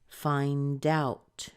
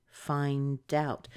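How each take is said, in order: The two takes are said the same way.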